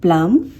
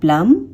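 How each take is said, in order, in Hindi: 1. अंतिम b की ध्वनि साइलेंट होती है। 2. अंतिम b की ध्वनि साइलेंट होती है।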